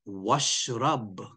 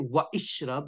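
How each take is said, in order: First: The 'i' vowel is dropped, joining wa to shrab. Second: The 'i' vowel of ishrab is pronounced separately. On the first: The speaker calls it right. "you say washrab" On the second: The speaker calls it wrong. "you don't say wa ishrab"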